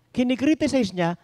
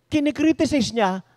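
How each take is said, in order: Both takes have the same delivery.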